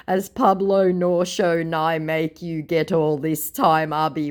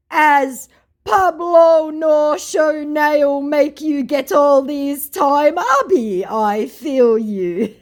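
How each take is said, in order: First: Said in the usual way. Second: Slow, high, loud Nigerian Pidgin voice; a hammed-up Nigerian Pidgin accent; mock Nigerian Pidgin. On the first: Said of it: "I'm sorry". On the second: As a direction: drag out the Nigerian Pidgin like the scammer. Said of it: "What the fuck that meant".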